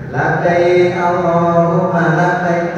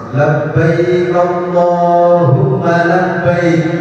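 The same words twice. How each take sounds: First: It is said casually, without feeling. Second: It is said with deep, heartfelt feeling.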